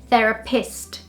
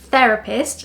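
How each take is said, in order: First: The stress falls where Portuguese terapeuta has it. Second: The stress falls where English normally puts it. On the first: The speaker calls it wrong. "If I were to use the same stress for that word as therapist" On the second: The speaker calls it right. "learning where the correct stress is"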